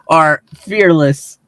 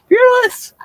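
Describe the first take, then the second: First: Slow dramatic. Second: Sudden high squeak; squeaky high. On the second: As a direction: jump way up on fearless. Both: Acted. Dramatic build-up introducing Jimmy.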